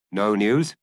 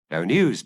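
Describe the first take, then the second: First: "No news?" with a rising question tune on "news"; asking. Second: "No news," with a falling, settled tune on "news"; answering. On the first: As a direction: ask it, lift "news" at the end. Maigret asks, Janvier answers. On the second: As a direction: answer it flatly, let "news" fall. Janvier answers the question. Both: Acted.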